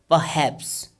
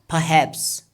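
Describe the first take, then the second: Both takes have the same delivery.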